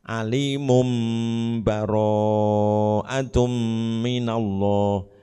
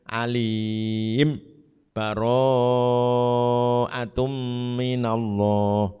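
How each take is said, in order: First: The first word runs straight into the next. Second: A brief stop follows the first word. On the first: "diwasolkan dengan dibaca iklab" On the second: "dibaca saktah berarti disukun"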